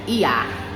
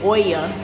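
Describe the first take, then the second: First: The name starts with an 'ee' sound. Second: The name starts with an 'oy' sound. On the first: The speaker calls it right. "it's Ia" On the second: The speaker calls it wrong. "I was saying Oya"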